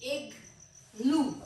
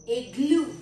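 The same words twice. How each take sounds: First: igloo said very slowly, each sound stretched; slow drawn-out word. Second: Said in the usual way. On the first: Shown as a demonstration. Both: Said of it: "इसके दो syllables हैं".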